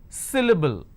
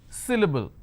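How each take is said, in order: No difference in how they are said.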